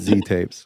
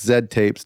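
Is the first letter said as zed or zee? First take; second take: zee; zed. First: The letter is pronounced zee. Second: The letter is pronounced zed. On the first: The speaker calls it wrong. "Don't call it Z Tapes" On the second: The speaker calls it right. "it's Zed Tapes"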